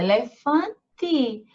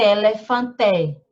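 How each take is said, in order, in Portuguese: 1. A vogal final soa como 'i'. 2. A vogal final soa como um 'e' claro. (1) "a gente lê elefante ... O E tem som de I" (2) "a gente não lê elefante"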